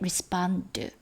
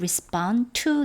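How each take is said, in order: First: The 'to' blends into 'respond' and nearly vanishes. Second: The 'to' is pronounced clearly as its own word. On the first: "respond 이렇게 그냥 한꺼번에 나기도 합니다" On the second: "to를 살려도 괜찮습니다"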